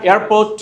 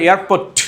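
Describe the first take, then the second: First: এয়ারপোর্ট closing on a gentle, short T; unforced final T in এয়ারপোর্ট; smooth final T. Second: এয়ারপোর্ট ending in a hard puff of T; exploded final T in এয়ারপোর্ট; over-released final T. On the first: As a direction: let the last T of এয়ারপোর্ট land without a puff. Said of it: "একদম smoothly". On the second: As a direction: force the last T of এয়ারপোর্ট out as ঠ. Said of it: "এত জোর প্রয়োগ করা যাবে না". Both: Shown as a demonstration.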